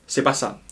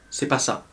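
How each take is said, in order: Both takes have the same delivery.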